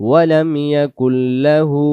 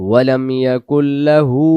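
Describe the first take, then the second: The two takes are said the same way.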